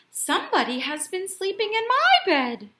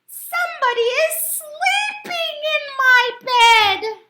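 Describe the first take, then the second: First: It is said in a quiet, gentle voice. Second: It is said in a small, squeaky voice.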